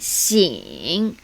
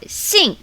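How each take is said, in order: First: The syllable is said with tone three. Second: The syllable is said with tone four. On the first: "Tone three" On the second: "Tone four"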